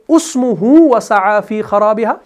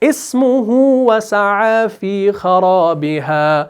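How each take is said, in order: First: The first word begins with a 'u' sound. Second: The first word begins with an 'i' sound. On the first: The speaker calls it wrong. "हम ऐसे नहीं पढ़ेंगे" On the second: The speaker calls it right. "फिर आगे से पढ़ना चाहें"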